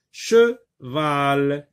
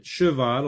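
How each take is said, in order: First: "Cheval" broken as che, pause, val; split into syllables. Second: Said in the usual way. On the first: Shown as a demonstration. Teacher showing the two syllables, "Cheval" pulled apart. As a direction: say "Cheval" in two separate, drawn-out beats. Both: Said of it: "Cheval comporte deux syllabes".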